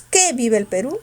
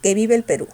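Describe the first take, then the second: First: "que" marcado con fuerza; stress on QUE. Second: "que" átono, peso en "vive"; que sin fuerza. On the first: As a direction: golpea "que" al inicio. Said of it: "con fuerza". ("que" con fuerza de voz) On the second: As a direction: deja "que" sin énfasis. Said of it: "sin fuerza". ("que" pronunciado sin fuerza) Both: Shown as a demonstration.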